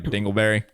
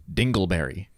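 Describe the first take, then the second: First: Said with a smile as a joke; joking, smiling. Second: Deadpan, dead-serious answer; confident answer. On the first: Shown as a demonstration. Joking version of the fiancée's icebreaker answer, smiling. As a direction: grin through the word. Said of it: "I would say it with a, a smile on my face". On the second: Retold or imitated. Fiancée answering the icebreaker dead serious. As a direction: say it with total confidence. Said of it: "In all seriousness and unbridled confidence".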